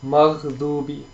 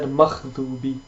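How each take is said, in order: First: The middle consonant is a voiced gh sound. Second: The middle consonant is a voiceless kh sound. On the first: The speaker calls it right. "We have to note is a ghain" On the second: The speaker calls it wrong. "you turned it into a kh sound instead, like a kha"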